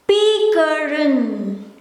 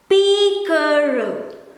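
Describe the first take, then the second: First: The final n sound is clearly pronounced. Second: The final n sound is left off. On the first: This keeps the written form to avoid spelling mistakes. "but I will pronounce it as" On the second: This is how most native speakers say it. "most people will pronounce it as"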